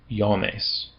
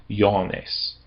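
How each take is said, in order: Both takes have the same delivery.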